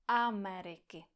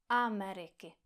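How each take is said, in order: No difference in how they are said.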